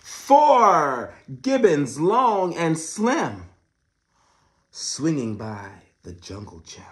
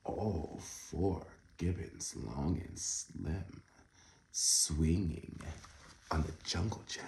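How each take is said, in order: First: Loud, slow storybook read; big reading voice. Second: Soft, slow, lower reread; hushed second reading. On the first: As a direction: boom out the rhyme slowly. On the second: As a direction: murmur the rhyme again gently. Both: Shown as a demonstration. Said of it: "Oh my goodness".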